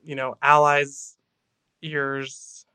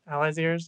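First: Said in the usual way. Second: "Allies' ears?" rising like a puzzled question; questioning tune. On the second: Real, not acted. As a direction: ask "Allies' ears?" back in disbelief. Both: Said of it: "Allies' ears?".

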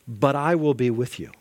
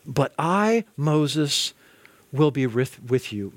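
First: Said in the usual way. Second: "But I, Moses, will be with, with you" with long pauses between the parts; slow with pauses. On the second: Shown as a demonstration. Preacher re-reading God's promise to Moses, slow and paused.

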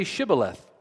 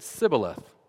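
First: Shibboleth said with a clear sh at the start, SHIB-bo-leth; correct Shibboleth. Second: Sibboleth with a plain s instead of sh; mispronounced Shibboleth. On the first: Gileadite guard testing a fugitive, clear sh in Shibboleth. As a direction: give Shibboleth its full sh sound. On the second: Ephraimite fugitive failing the test, says Sibboleth with s. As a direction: say Sibboleth, s not sh, the failed password. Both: Shown as a demonstration. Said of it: "for he could not pronounce it right".

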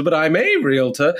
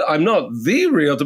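First: Stressed A, said as "ay" with a pitch peak. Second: Stressed THE, said as "thee" with a pitch peak. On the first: Realtor clarifying to a lady at a showing, stress on "a". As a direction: lean hard on "a" as "ay". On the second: Realtor correcting a lady at a showing, stress on "the". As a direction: lean hard on "the" as "thee". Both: Retold or imitated.

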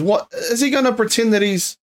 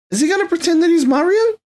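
First: Said in the usual way. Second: High, rising disbelief on Mario; incredulous. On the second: Real, not acted. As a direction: ask it in mock disbelief, voice climbing. Mocking a casting choice.

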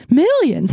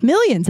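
First: MILLIONS said higher, with extra punch; emphatic MILLIONS. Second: Said in the usual way. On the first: Real, not acted. Podcaster dreaming of a bigger audience, emphatic MILLIONS. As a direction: lean hard on the first syllable of MILLIONS. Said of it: "why I said it like that".

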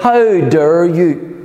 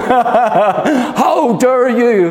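First: Slow, indignant "How dare you?"; a defiant inner voice pushing back; defiant retort. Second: Very slow, drawn-out "How dare you?" in a put-on voice, laughing through it; mock impression of a teenage activist scolding world leaders; Greta Thunberg impression. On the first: Retold or imitated. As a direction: draw out "How dare you?" slowly in your own voice. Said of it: "it's like". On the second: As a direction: do the climate activist girl's outraged line. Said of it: "I get all Greta".

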